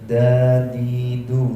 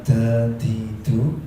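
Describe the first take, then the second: First: The d sounds have no puff of breath. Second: The d sounds carry a hiss of breath. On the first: The speaker calls it right. "tanpa angin, tanpa resis" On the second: The speaker calls it wrong. "Bukan dadidu"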